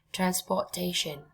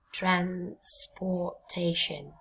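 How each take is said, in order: First: Said in the usual way. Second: "transportation" drawn out very slowly in separate chunks; syllable by syllable. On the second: Shown as a demonstration. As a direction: break "transportation" apart slowly for learners to repeat. Teacher models long word by syllables. (đọc thật chậm "transportation", ngắt từng âm tiết)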